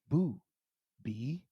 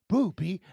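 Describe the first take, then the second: First: The two words are said slowly and separately. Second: The two words are said quickly, run together.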